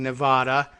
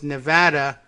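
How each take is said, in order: First: It is said with a Spanish-style pronunciation. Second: It is said with an anglicized local pronunciation. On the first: It follows the original name of the place. "based on the Spanish name for the state" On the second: It follows the usage of the local population.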